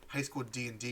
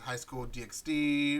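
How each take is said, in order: First: The middle part is said as the word and. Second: The middle part is said as the letter X. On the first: The speaker calls it right. "or sorry" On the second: The speaker calls it wrong. "You don't you don't say the X"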